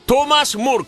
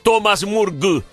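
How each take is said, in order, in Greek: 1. Το όνομα τελειώνει με έναν άηχο ήχο k. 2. Το όνομα τελειώνει με έναν ηχηρό ήχο g. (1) "Είναι κάπα" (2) "το γκου στο τέλος της λέξης δεν μπορεί να προφερθεί γκου"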